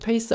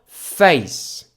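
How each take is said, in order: First: It is said as a Korean loanword. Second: It is said with English pronunciation. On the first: "한국에선 페이스라고 하고요" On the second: "영어 발음하려면 어떻게 해요?"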